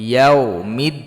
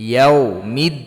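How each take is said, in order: Both takes have the same delivery.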